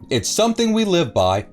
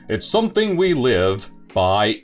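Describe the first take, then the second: First: It is read in an ordinary speaking voice. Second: It is read in a dramatic announcer voice.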